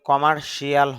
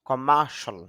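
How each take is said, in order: First: The ending is said as 'shee-al'. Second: The ending is said as 'shal'. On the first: The speaker calls it wrong. "আসলে কমার্শিয়াল হবে না" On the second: The speaker calls it right. "উচ্চারণটা হবে খ মা সল"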